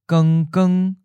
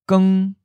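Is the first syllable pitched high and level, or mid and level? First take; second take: mid; high. First: Doubled syllable, first mid level, second high level. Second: A single syllable on a high level pitch. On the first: A little bright. "the reduplicated version has both the changed tone and the original tone" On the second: Bright. "we'll first say the adjective by itself"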